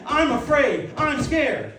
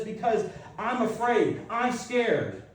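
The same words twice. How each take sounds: First: High, loud admission of fear; bold confession. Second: Said in the usual way. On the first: Shown as a demonstration. Christians stepping up to confess fear, loud and high. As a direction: declare it out loud, unashamed. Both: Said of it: "need to step up and say".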